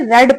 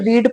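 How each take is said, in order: First: The vowel is a short 'e' sound. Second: The vowel is a long 'ee' sound. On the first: The reading happened in the past. "अगर story past में चल रही है ... रेड पढ़ेंगे" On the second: The reading happens in the present. "अगर story present में चल रही है तो हम इसे रीड पढ़ेंगे"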